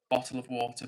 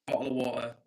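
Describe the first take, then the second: First: Said in the usual way. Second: Bottle of water in a lightly British accent, with a glottal t. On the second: Shown as a demonstration. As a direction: give them the British Bottle of water they asked for. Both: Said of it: "But I'll give you what you want".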